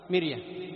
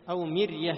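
First: مرية with a thin, light راء; thin راء demo. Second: مرية with a light, thin راء; thin راء demo. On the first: Teacher repeating مرية to show the thin راء. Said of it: "لاحظ". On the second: Teacher showing the thin راء in مرية. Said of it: "الراء في كلمة". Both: Shown as a demonstration.

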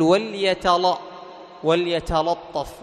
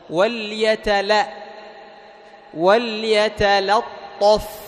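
First: "وليتلطف" with the second l thickened by the following ṭ; wrongly heavy lam. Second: Slow, drawn-out "وليتلطف", thin la then heavy ṭṭo; heaviness only on ṭa. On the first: Teacher shows students the error, "وليتلطف" with emphasis spilling onto lam. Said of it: "انتبه أن تجعل الاستعلاء يطغى". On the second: Teacher models correction for students, slow "وليتلطف" with thin lam, heavy ṭa. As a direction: recite "وليتلطف" slowly, keeping l light before ṭ. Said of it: "لاحظ تجعل التفخيم فقط فين؟". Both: Shown as a demonstration.

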